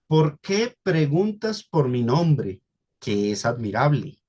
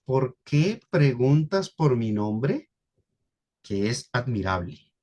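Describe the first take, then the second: First: Slow, "¿Por qué preguntas por mi nombre, que es admirable?" as one question; read as one question. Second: Slow "¿Por qué preguntas por mi nombre," then a pause and a lower "que es admirable"; question then statement. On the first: Slow single-question reading. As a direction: pastor reads the verse to the congregation as one question. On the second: Slow question, pause, then a lower statement. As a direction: pastor shows the congregation the question ending before "que es admirable". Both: Shown as a demonstration. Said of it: "Noten cómo lo leo".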